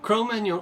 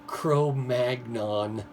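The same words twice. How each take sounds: First: It is said with a French accent. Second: It is said with a Midwest American accent. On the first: "So I'm saying it with a French accent" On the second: "I'll try to learn to say French words like Midwest Americans do"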